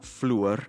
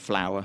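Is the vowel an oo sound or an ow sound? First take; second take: oo; ow. First: The vowel is an oo sound. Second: The vowel is an ow sound. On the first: This is an older East Yorkshire pronunciation. "she uses an oo sound" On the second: This is the speaker's own pronunciation. "for me is an ow sound"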